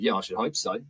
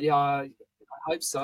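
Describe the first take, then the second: First: It sounds confident and direct. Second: It sounds unsure and hesitant.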